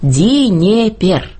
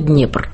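First: It is three syllables with inserted vowels. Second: It is one syllable with a consonant cluster. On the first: The speaker calls it wrong. "У них это выглядело так" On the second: The speaker calls it right. "произнести слово «Днепр»"

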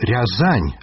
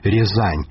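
First: The first vowel is an open 'ya' sound. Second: The first vowel is a closer 'ye' sound. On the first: It reflects a dialect base shared with Belarusians. "і вымаўленне «рязань»" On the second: It lacks the shared dialect feature. "а не «рязань»"

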